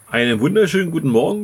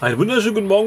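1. Der Gruß wird langsamer gesprochen. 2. Der Gruß wird schnell gesprochen. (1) "ich sag's nochmal" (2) "Ich war ein bisschen schnell gerade"

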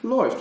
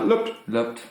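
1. Das Wort wird auf Hochdeutsch gesagt. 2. Das Wort wird auf Plattdeutsch gesagt.

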